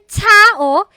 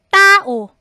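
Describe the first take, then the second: First: The t is released with a puff of air. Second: The t is tense with no puff of air. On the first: It sounds affected and foreign. The speaker calls it wrong. "Hindi yan tao, ... Ang arte nun" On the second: It is the native Filipino sound. The speaker calls it right. "Ang double T or double T na yan is actually T as in tao"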